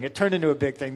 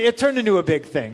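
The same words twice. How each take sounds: First: Said in the usual way. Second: Louder, higher take stressing turned; emphatic. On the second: Real, not acted. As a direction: hit turned loud and high. Repeated phrase, emphatic take.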